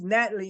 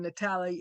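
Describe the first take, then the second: First: The name is pronounced the English way. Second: The name is pronounced the Italian way. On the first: "her name is actually pronounced Natalie in English" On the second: "a friend of hers that's Italian pronounces it Natalie"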